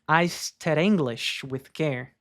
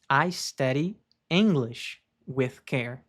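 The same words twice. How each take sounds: First: The sentence is spoken quickly with words run together. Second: The sentence is spoken slowly with words kept apart. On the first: "Pronunciei de uma forma mais rápida" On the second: "em seguida de uma forma mais lenta"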